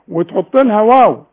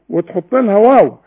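Both takes have the same delivery.

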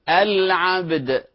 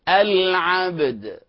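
Both takes have the same delivery.

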